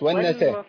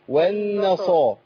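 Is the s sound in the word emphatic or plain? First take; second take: plain; emphatic. First: The s sound is light and plain. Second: The s sound is heavy and emphatic. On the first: The speaker calls it wrong. "مش والنصارى" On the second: The speaker calls it right. "هي سين ولا صاد؟ ... صاد"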